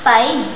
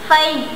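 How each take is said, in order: First: The word begins with a P sound. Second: The word begins with an F sound. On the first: The speaker calls it wrong. "Ang mga Pilipino ay walang F sound" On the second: The speaker calls it right. "na dapat bigkas ay five"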